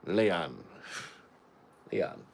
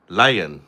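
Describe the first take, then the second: First: Put-on Jamaican accent, Leon with an "ee" sound; Jamaican lion. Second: Lion said with a long clear "eye" vowel; lion pronounced. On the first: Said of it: "Sounds like a Jamaican saying lion". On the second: Shown as a demonstration. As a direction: give Lion its name sound, lie-on. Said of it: "Say the A".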